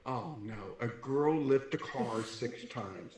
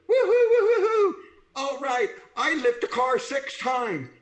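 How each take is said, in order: First: Low, slow, soft dismayed echo; mock dismay. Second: High, loud crowing imitation of a cheering competitor; triumphant mock whoop. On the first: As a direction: sink into it, dragging the words out. His dismayed reply to her boast. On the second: Imitating a triumphant young woman competitor.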